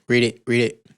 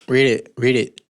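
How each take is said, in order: No difference in how they are said.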